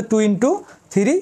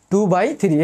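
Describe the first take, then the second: First: "two into three" read with into for the times sign; the wrong way, saying "into" between the numbers. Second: "two বাই three" read with the English word by in the middle; the right way: "two বাই three", by not into. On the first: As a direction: mistaken "two into three", into instead of by. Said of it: "আবার বলিও না যে". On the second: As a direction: say "বাই" for the times sign, "two বাই three". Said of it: "তাহলে বলবা যে two বাই three". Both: Shown as a demonstration.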